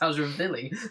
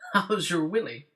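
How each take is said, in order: First: It is said with a Swedish v sound. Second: It is said with a plain English w sound.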